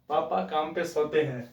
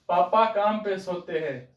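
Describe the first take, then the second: First: The phrase is said more softly and quietly. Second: The phrase is said at normal loudness. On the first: The speaker calls it right. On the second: The speaker calls it wrong.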